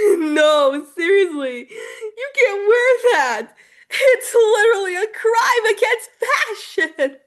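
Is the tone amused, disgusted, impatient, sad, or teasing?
amused. It sounds amused, as if it's hilarious.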